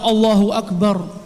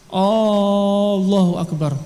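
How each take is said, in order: First: The opening vowel is short and plain. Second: The opening vowel is drawn out, like a question. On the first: It states that God is the greatest. The speaker calls it right. "Yang seharusnya" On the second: It asks whether God is the greatest. The speaker calls it wrong. "Kalau dia menambah alif"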